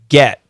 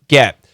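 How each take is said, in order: First: The vowel sounds like the short e. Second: The same.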